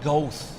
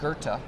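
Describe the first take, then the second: First: The name is said with an anglicized spelling pronunciation. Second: The name is said with a German-style pronunciation. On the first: The speaker calls it wrong. "he would sometimes mispronounce" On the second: The speaker calls it right. "it's pronounced Goethe"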